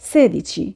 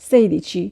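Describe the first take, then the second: First: The first syllable sounds like 'seh'. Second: The first syllable sounds like 'say'. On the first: The speaker calls it right. "উচ্চারণ হবে sedici" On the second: The speaker calls it wrong. "এটা আসলে ভুল উচ্চারণ"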